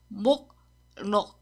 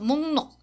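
First: The first syllable ends in a k sound. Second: The first syllable ends in an ng sound. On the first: "하준 씨 여기 썼어요" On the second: "But is pronounced 목록. 이응 이응"

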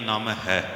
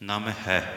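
No difference in how they are said.

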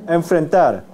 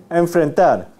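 No difference in how they are said.

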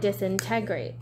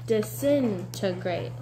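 First: The second syllable is said without stress. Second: The second syllable is said with stress. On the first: The speaker calls it wrong. "you weren't putting the accent. You were saying disintegrate, and it was making you not recognize the word" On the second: The speaker calls it right. "you can try it a different way, like we did"

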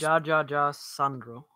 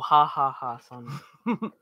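First: Each syllable starts with a 'j' as in jam. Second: Each syllable starts with an 'h' as in hat. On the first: The speaker calls it wrong. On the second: The speaker calls it right.

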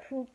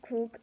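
No difference in how they are said.

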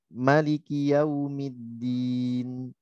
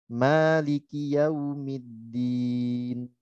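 First: The first vowel of Maliki is short. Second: The first vowel of Maliki is long. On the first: "manya pendek" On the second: "seperti bacaan kita"

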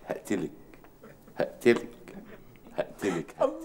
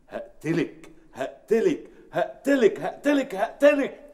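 First: The threat is delivered in a soft romantic tone. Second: The threat is delivered in an intense dramatic tone. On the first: The scene is played as a romance. "هي دي الرومانسية" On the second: The scene is played as a serious drama. "بس دي يعني فيها دراما"

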